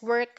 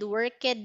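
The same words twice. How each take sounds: First: The ending is said without an extra syllable. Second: The ending is said as an extra syllable. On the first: The speaker calls it right. "Just one syllable" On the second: The speaker calls it wrong. "you don't pronounce it"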